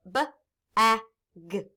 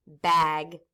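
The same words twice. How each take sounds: First: "B-A-G" as three separate letter sounds, buh, a, guh; tapped-out sounds. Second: Said in the usual way. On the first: Shown as a demonstration. Teacher tapping out a word, "B-A-G" sound by sound. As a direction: tap out each sound of "B-A-G" with gaps. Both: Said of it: "Let's tap it".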